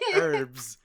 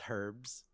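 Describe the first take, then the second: First: It is said the American way. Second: It is said the Canadian way. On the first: This is how the American speaker says it. "I say herbs. I'm American" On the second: This is how the Canadian friend says it. "Mio says herbs"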